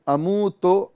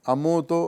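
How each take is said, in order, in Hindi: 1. अंतिम स्वर o जैसा सुनाई देता है। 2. बीच और अंतिम, दोनों स्वर o जैसे सुनाई देते हैं। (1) "अमू तो नहीं पढ़ना है" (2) "अमो तो नहीं पढ़ना है"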